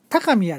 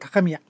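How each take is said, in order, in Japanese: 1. 語の中で上がったり下がったりします。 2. 語全体で平らに保たれます。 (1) "関西は高宮でしたっけとこう抑揚があるのに" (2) "関東はさっきも言いましたけど高宮と平板なんですよね"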